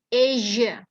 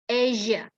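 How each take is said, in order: Both takes have the same delivery.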